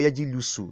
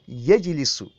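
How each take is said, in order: First: The vowel after the L is u. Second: The vowel after the L is i. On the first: The speaker calls it wrong. "or yajilusu. No. Very wrong" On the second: The speaker calls it right. "The lamun is the ainul kalima. What is it carrying in mudaro? Kasra"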